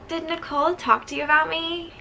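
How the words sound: It is read in a put-on character voice.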